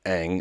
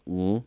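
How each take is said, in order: First: It starts with an open vowel before the nasal. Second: It is a closed-mouth nasal hum with no vowel. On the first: The speaker calls it wrong. "is how they pronounce it" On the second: The speaker calls it right. "it's like this Mm sort of nasal noise"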